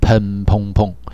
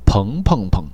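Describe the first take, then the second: First: The name is said in Guiyang dialect. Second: The name is said in standard Mandarin.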